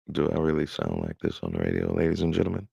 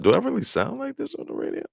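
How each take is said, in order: First: Said in the usual way. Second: Higher, playful radio voice. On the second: Pretend. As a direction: test your radio voice.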